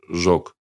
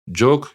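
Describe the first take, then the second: First: The word begins with a 'zh' sound. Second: The word begins with a 'j' sound. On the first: This is how the Kazakhs say it. "как у казахов" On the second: This is how the Nogais say it. "для ногаев, именно восточных ногаев, характерен фонема «дж»"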